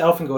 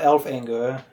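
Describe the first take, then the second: First: The name ends with a 'gore' sound. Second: The name ends like the word 'anger'. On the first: The speaker calls it right. "I pronounce it Elfangor" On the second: The speaker calls it wrong. "not elf anger"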